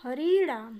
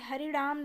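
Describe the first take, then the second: First: The second syllable has a long i vowel. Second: The second syllable has a short i vowel. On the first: The speaker calls it right. "बड़ी री है" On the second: The speaker calls it wrong. "नहीं है"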